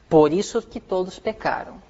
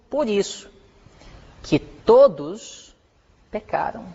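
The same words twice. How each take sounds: First: The phrase runs on without a pause. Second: There is a pause after 'por isso'. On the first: Everyone sinned because Adam chose sin. The speaker calls it wrong. "Aí está errado" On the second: Everyone has sinned. The speaker calls it right. "Veja bem"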